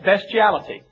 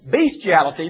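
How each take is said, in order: First: The first syllable sounds like 'best'. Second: The first syllable sounds like 'beast'. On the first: "It sounds like something that's good, the best" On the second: "If I were to mispronounce that and say bestiality, then you would know exactly what I'm talking about"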